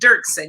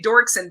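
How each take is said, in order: First: The first syllable sounds like 'dirk'. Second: The first syllable sounds like 'dork'. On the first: The speaker calls it right. "but it's Dirksen" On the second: The speaker calls it wrong. "A lot of people say Dorkson"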